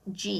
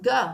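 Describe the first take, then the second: First: The G is soft, like the start of 'gem'. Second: The G is hard, like the start of 'go'. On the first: The speaker calls it wrong. "It's not pronounced G" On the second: The speaker calls it right. "This is a hard G"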